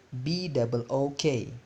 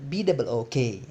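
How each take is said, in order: First: Said in the usual way. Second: Faster. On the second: Shown as a demonstration. Teacher asks class to spell faster, quicker spelling. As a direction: spell it out quicker, letters run together. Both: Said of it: "Lebih cepat".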